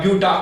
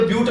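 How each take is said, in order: First: ब्यूटा with an open "aa" ending; added final A. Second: Said in the usual way. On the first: Shown as a demonstration. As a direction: finish ब्यूटा on a clear "-taa". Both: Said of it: "ब्यूट नहीं बोलेंगे आप".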